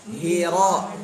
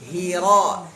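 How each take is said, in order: The two takes are said the same way.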